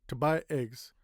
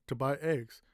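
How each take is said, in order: The two takes are said the same way.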